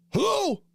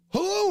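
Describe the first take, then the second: First: High, falling hello? to an unseen intruder; calling hello. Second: High, rising hello? like a real question; calling hello again. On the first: Called out to a stranger at the door, startled and high. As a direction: call out, startled and unsure, voice way up. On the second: Startled call again to a stranger at the door, rising. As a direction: call out once more, pitch up at the end. Calling out to intruder, half asleep. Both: Retold or imitated.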